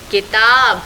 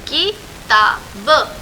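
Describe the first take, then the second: First: Said in the usual way. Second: किताब stretched very slowly, syllable by syllable, rising at the end; sounded out slowly. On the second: Shown as a demonstration. Teacher to children, spelling किताब by drawing it out slowly.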